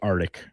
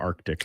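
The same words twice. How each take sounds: First: The c sound before the t is dropped. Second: The c sound before the t is pronounced. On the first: The speaker calls it wrong. "people say Arctic" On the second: The speaker calls it right. "There's a C in there"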